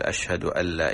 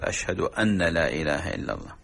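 First: أن لا said as "allaa"; merged nun. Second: أن said as "anna" before لا; unmerged nun. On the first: Sheikh starting the correct form, merged nun. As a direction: melt the n of أن into لا. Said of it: "إدغام النون". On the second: Sheikh imitating muezzins' slip in the shahada, unmerged nun. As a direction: sound the n of أن fully, apart from لا. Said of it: "يترك إدغام النون". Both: Shown as a demonstration.

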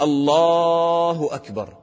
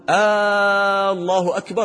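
First: Slow higher chant, "الله" held on the "لا"; long sustained "لا" in "الله أكبر"; correct long vowel. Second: Very long high "آ" opening "الله أكبر"; chanted "الله" stretched at its start; mistaken first-vowel lengthening. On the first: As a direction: stretch the middle of "الله", keep "أكبر" short. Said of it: "المد يكون في". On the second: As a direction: hold the first vowel of "الله", then hurry the rest. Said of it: "هذا خطأ". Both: Shown as a demonstration.

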